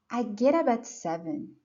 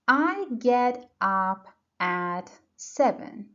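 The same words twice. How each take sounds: First: The words are linked together like one word. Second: Each word is said separately, without linking. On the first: The speaker calls it right. "That's connected speech. And get, up, and at are linked" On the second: The speaker calls it wrong. "this is not how a native speaker would say it"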